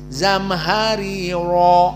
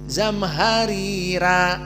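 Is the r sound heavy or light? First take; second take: heavy; light. First: The r sounds are heavy and full. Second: The r sounds are light and thin. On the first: This is the majority reading tradition. "jumhur dibaca dengan mufakhamah" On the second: This is one reading tradition. "zamharira dua muraqqaqah"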